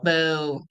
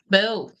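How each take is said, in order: First: The boo sounds deep and guttural. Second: The boo sounds light and half-hearted. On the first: The crowd truly dislikes him. "they were genuine guttural" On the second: The crowd does not really mean it. "it was almost like a disingenuous boo"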